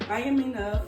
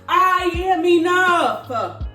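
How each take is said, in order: First: It is said quietly and timidly. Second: It is yelled loudly and boldly. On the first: The speaker lacks confidence. The speaker calls it wrong. "with your head down" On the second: The speaker is confident and means it. The speaker calls it right. "You gotta yell that out sometimes"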